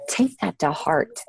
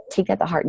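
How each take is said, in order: First: Slow emphasis. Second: Said in the usual way. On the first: Shown as a demonstration.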